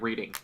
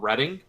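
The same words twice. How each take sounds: First: The first vowel sounds like in 'reed'. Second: The first vowel sounds like in 'red'. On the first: This is how the spelling suggests it is said. "but it looks like" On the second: This is how the town's name is actually said. "There's a place called"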